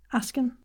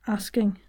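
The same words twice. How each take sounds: First: "asking" with a short ah and no final G; "asking" clipped to "ahskin"; Scottish "asking". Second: Said in the usual way. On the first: Shown as a demonstration. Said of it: "would be a". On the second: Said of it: "And the vowel before the consonants".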